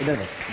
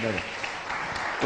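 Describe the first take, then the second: First: Said in the usual way. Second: इधर बैठो whispered slowly and softly. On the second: Real, not acted. Host hushing the child to sit, soft whisper. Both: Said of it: "यहाँ बैठो, इधर बैठो".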